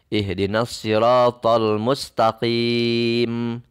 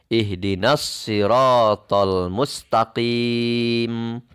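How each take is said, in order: Both takes have the same delivery.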